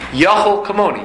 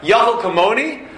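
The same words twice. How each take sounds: First: It is said calmly as an affirming statement. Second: It is said with questioning intonation. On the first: Affirmation that one is able to be like God. The speaker calls it right. "Read it b'nichusa. Not as a question, b'nichusa" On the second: Mocking doubt that one could be like God. The speaker calls it wrong. "Don't read it as a question"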